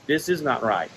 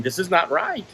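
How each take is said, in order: First: "This is not right" lower, falling to a close; resigned repeat. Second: "This is not right" said with a lift on "right"; indignant emphasis. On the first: Patient leaving the clinic, "This is not right" falling resignedly. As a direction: let "not right" drop with finality. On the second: Patient leaving the clinic, indignant lift on "right". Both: Retold or imitated.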